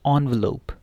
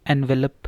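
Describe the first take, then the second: First: एनवेलप starting with an on sound, on-velop; correct pronunciation. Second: एनवेलप with an en vowel, like envelope; wrong pronunciation. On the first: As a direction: say एनवेलप beginning with on. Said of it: "इसको क्या पढ़ना है". (एनवेलप सही उच्चारण, ऑन से शुरू) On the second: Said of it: "एनवेलप लिफाफा नहीं है". (एनवेलप गलत उच्चारण, एन से शुरू) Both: Shown as a demonstration.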